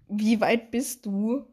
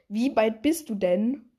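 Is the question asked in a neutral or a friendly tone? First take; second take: neutral; friendly. First: It is asked in a plain, neutral tone. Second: It is asked in a friendlier, warmer tone.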